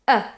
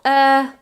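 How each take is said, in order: First: The vowel is very short. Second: The vowel is held long. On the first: The speaker calls it right. "It's very short" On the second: The speaker calls it wrong. "it's not er"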